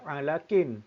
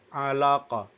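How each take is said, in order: First: The word ends with a full -in ending. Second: The word ends on a stopped, bouncing q. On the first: The speaker calls it wrong. "kita tak baca alakin" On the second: The speaker calls it right. "kita baca dia dengan mematikan huruf qaf"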